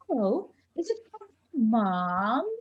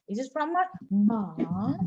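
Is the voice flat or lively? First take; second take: lively; flat. First: It is said with high pitch and loudness. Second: It is said in a flat, robotic voice.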